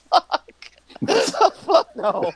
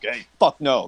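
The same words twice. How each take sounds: First: High, laughing refusal; jovial refusal. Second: Low, straight-faced refusal; serious refusal. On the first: Turning down the party's loyalty oath, jovial and laughing. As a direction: refuse while cracking up. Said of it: "like, a jovial way". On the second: Turning down the party's loyalty oath, serious refusal. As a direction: turn them down in earnest, pitched low. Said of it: "I wouldn't have, like, really been like". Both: Acted.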